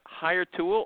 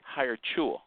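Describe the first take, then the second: First: The second word starts with a plain t sound. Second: The second word starts with a ch sound. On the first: This is the speaker's own usual pronunciation. "I say Hire Tool" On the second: This is how the company itself says it. "they say Hire Chool"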